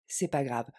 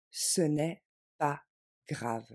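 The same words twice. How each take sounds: First: Said in the usual way. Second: Slow down and hold a beat before grave; pause before grave. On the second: Shown as a demonstration. Teacher reassuring nervous learners, slow with a pause before grave.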